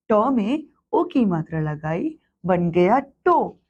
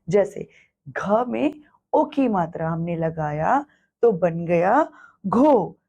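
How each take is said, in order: First: टो said slowly with a falling close; slow teaching syllable. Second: घो drawn out slowly, falling, to teach; syllable spelled out slowly. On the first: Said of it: "अब". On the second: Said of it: "इस मात्रा को हम शब्द बनाने में". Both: Shown as a demonstration.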